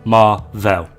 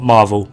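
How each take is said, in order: First: The name is said as two separate parts. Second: The name is said as one single word. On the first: The speaker calls it right. "Two words, or hyphenated rather" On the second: The speaker calls it wrong. "not Marvel"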